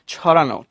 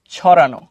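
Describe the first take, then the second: First: Said in the usual way. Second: ছড়ানো said low and loud, firmly; emphatic correct word. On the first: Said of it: "কি লিখবা". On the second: Shown as a demonstration. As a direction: hammer home ছড়ানো as the right word. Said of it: "তোমরা ছড়ানো দিবা". (জোর দিয়ে ছড়ানো)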